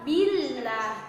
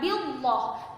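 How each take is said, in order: First: The L sound is thin and light. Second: The L sound is thick and heavy. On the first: The speaker calls it right. "tapi billah, tipis" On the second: The speaker calls it wrong. "bukan billah"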